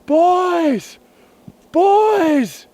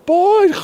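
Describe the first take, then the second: First: Desperate shout from under the snow; yelled. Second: High, loud shout cut off by snow; choked yell. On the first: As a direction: yell up the slope for the boys. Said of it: "So I'm yelling". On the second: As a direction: yell through a throat full of snow. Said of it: "As I'm yelling". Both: Retold or imitated.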